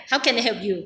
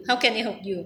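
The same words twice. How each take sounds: First: Each word placed slowly and carefully; slow deliberate English practice; careful slow take. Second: Said in the usual way. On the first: Shown as a demonstration. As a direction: spell the phrase out slowly like a learner. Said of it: "คือเราจะเร็ว เร็วไม่ได้". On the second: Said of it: "เร็วไม่ได้".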